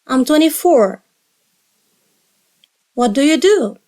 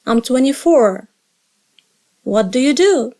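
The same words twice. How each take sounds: The two takes are said the same way.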